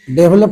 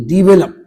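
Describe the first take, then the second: First: डेवलप said 'DE-vlup'; wrong pronunciation. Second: डेवलप said 'di-VE-lup'; short 'di', then full 've' in डेवलप; correct pronunciation. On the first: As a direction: open डेवलप with a full 'de'. (डेवलप को 'डेव-लप' बोलें) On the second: (डेवलप को 'डिवेलप' बोलें) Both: Shown as a demonstration. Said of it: "डेवलप नहीं".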